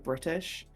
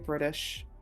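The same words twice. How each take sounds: First: It is said with a British pronunciation. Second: It is said with an American pronunciation. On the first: "rather than" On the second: "I definitely do keep some American pronunciations"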